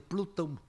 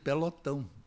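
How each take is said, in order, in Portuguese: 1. A primeira vogal átona é apagada. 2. A primeira vogal átona é mantida. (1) "ele dizia Plutão" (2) "ele queria dizer pelotão"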